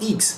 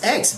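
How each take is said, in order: First: The letter is said with French pronunciation. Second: The letter is said with English pronunciation. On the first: The speaker calls it wrong. "It's not X, as in French" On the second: The speaker calls it right. "And it's X"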